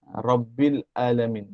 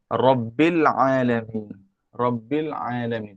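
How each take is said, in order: First: "Alamin" with a plain a and no throat press; wrong plain alif. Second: "Alamin" opened with a pressed throat ain, slowly. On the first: Teacher showing the wrong reading of Alamin. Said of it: "jangan dia baca Rabbil Alamin". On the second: Teacher showing the correct reading of Alamin. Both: Shown as a demonstration.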